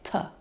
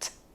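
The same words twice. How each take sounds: First: The t sound has a short uh vowel added. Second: The t sound is clipped with no vowel after. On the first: The speaker calls it wrong. "put the schwa, which is the like short U sound, on the end" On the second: The speaker calls it right. "clipping those sounds"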